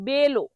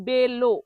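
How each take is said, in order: No difference in how they are said.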